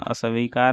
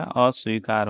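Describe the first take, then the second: First: अस्वीकार broken as "a-sa-veekaar"; inserted vowel. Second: Said in the usual way. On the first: Shown as a demonstration. Teacher showing the mistake, अस्वीकार as "asaveekaar". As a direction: put an extra "a" between s and v in अस्वीकार. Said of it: "नहीं होता है". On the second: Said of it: "अस्वीकार होता है".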